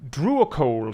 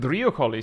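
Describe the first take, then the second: First: It is said with plain English sounds. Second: It is said with Greek-like sounds. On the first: The speaker calls it wrong. "sounds silly to me" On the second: The speaker calls it right. "really trying to nail the the Greek on it"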